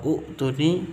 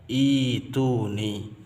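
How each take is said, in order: First: The word begins with a u vowel. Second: The word begins with an i vowel. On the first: The speaker calls it wrong. "ada yang baca" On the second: The speaker calls it right. "bacaan yang betul adalah"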